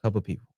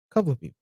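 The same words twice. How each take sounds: First: Hushed secretive whisper. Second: Said in the usual way. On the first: Acted. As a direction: keep it low and secret. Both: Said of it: "Why are you whispering?".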